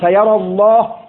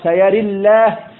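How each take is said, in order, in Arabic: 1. الصوت مفتوح بعد الراء، واللام مفخمة. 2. الصوت ممال بعد الراء، واللام مرققة. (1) "بالفتح والتغليظ" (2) "بالإمالة والترقيق"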